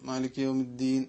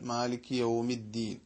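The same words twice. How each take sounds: First: The w sound is barely heard, lips unrounded. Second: The w sound is clearly heard with rounded lips. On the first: The speaker calls it wrong. "തീരെ ചുണ്ടളക്കാതെ ... വാവ് തീരെ ഉച്ചാരണത്തിൽ വരുന്നില്ല" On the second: The speaker calls it right. "രണ്ട് ചുണ്ടുകൾ മുന്നോട്ടെടുത്തു കഴിഞ്ഞാൽ"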